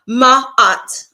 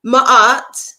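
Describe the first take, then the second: First: Said in the usual way. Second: Ma'at said as "Ma-aht" in a Caribbean accent; Ma'at with a long open Caribbean "aht". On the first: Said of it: "me saying Ma'at in a Caribbean or African". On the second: Shown as a demonstration. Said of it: "me saying Ma'at in a Caribbean or African, uh, accent".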